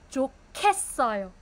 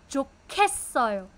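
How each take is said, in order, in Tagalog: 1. Malakas ang aspirasyon ng gitnang katinig. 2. Malakas ang aspirasyon ng gitnang katinig.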